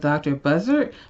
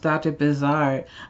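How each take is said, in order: First: The name is said like the bird 'buzzard'. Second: The name is said like the word 'bizarre'. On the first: The speaker calls it wrong. "this looks like it says doctor Buzzard" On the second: The speaker calls it right. "this card is pronounced doctor Bizarre"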